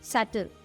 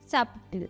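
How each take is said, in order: First: No b sound is pronounced in the word. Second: A b sound is pronounced in the word. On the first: The speaker calls it right. "ബി silent ആയിരിക്കും" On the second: The speaker calls it wrong. "ബി pronounce ചെയ്യും. ബ ബ sound വരും"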